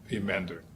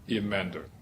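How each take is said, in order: Both takes have the same delivery.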